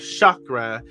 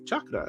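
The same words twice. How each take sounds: First: The word begins with a soft sh sound. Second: The word begins with a hard ch sound. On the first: The speaker calls it wrong. "It's not chakra" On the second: The speaker calls it right. "it's ch- with the ch chakra"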